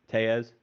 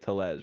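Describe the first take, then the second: First: The double L sounds like a Y. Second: The double L sounds like an English L. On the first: The speaker calls it right. "It's Tellez" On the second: The speaker calls it wrong. "you don't say it Tellez"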